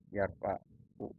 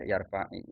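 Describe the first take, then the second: First: The word ends with a u vowel. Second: The word ends with an i vowel. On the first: "fi'il mudhari yarfa'u" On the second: "di ayat Al-Qur'an itu dibaca yarfa'i"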